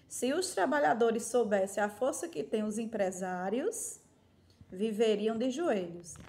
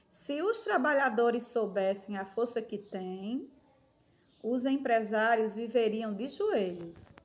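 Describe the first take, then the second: First: There is a pause after 'empresários'. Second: There is a pause after 'têm'.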